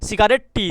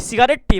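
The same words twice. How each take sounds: No difference in how they are said.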